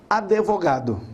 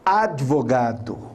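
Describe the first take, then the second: First: An extra e vowel is inserted after the d. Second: The d joins the v with no extra vowel. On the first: The speaker calls it wrong. "não existe esse E" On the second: The speaker calls it right. "é advogado"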